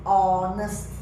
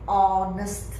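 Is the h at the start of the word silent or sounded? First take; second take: silent; silent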